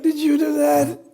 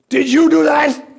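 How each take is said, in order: First: It is asked in a warm, gentle tone. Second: It is asked in a stern, harsh tone. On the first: The child has done nothing bad. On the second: The child has done something wrong.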